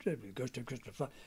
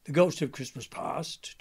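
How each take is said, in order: First: Said in the usual way. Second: Ghost voice. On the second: Shown as a demonstration. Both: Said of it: "talk like that".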